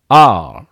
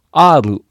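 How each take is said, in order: First: R as a long "ar" without final u; one drawn-out English syllable for R. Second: R as "aaru", tapped r and final u; Japanese katakana R. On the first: Teacher modelling the letter, R in English pronunciation. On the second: Teacher showing what not to say, R said as "aaru". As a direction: say R as katakana アール. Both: Shown as a demonstration. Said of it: "Rではないですよ".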